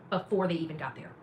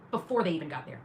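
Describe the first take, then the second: No difference in how they are said.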